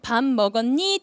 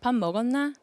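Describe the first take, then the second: First: It is said Seoul-style, rising at the end. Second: It is said in a Gangwon dialect.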